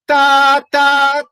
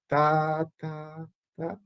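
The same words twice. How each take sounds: First: Forte "tá", high and loud. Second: Piano "tá", soft but same pitch. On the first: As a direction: belt "tá" high, keeping the pitch. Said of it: "cuidado de não fazer". ("tá" forte, agudo) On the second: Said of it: "não fazer o piano virar grave". ("tá" piano, mesma altura) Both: Shown as a demonstration.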